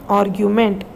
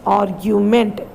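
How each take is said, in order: Both takes have the same delivery.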